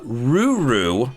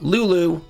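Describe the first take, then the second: First: The name is said with r sounds. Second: The name is said with l sounds. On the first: The speaker calls it right. "Ruru, not Lulu" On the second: The speaker calls it wrong. "not Lulu"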